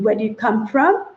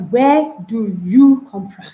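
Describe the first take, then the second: First: Said in the usual way. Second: "Where do you come from?" dragged out, word by word, stressed on you; slow, separated words. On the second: Shown as a demonstration. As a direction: say each word apart, slowly and stiffly.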